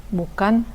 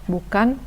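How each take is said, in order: No difference in how they are said.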